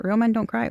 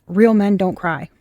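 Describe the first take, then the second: First: Quieter mocking disbelief, softer; incredulous. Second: Said in the usual way. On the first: Questioning Spirit about its message, in soft mocking disbelief. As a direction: throw the words back in disbelief. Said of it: "R-, really, Spirit?". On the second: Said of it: "I got the message".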